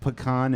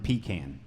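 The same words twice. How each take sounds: First: Pecan ending in "kahn"; pecan, first variant. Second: Pecan ending in "can"; long "ee", short "a" in pecan; pecan, second variant. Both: Shown as a demonstration. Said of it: "it's like pecan and pecan".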